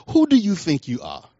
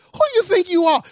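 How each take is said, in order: First: Said in the usual way. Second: Much higher, louder, near-crying challenge; crying rebuke. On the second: Retold or imitated. Pastor rebuking the false teacher at the conference, crying it out. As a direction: hurl the question at them in outrage.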